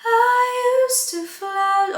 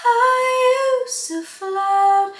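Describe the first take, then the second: First: "I used to float" with a clean onset on "I", no h; without h. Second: "I used to float" with a breathy h before "I". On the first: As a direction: start "I" cleanly without air. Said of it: "You can also try it without". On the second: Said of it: "You can do it with a H". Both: Shown as a demonstration.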